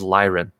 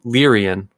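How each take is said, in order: First: The name is said with two syllables. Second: The name is said with three syllables. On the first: The speaker calls it right. "oh, I was wrong. It is Lyran" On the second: The speaker calls it wrong. "in the early days, I always said"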